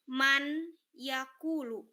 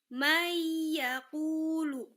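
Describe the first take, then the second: First: The n sound is pronounced clearly before y. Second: The n sound merges into a doubled y. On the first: The speaker calls it wrong. "jangan dibaca jelas. Bukan man yakulu. Bukan" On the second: The speaker calls it right. "nun matinya dia harus masuk ke dalam huruf ya"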